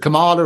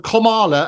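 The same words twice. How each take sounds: First: The first part does not sound like comma. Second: The first part sounds like the word comma. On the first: The speaker calls it wrong. "as opposed to" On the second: The speaker calls it right. "as in sort of comma, so like punctuation"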